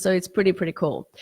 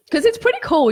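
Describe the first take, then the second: First: Said in the usual way. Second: Higher, louder burst of delight; excited. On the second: Real, not acted. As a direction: lift up with excitement on pretty. Excited aside to viewers.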